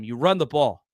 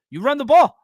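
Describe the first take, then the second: First: Said in the usual way. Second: Louder and higher, hammering the point home; emphatic shout. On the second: Real, not acted. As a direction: shout it like the obvious answer. Repeating his point for emphasis.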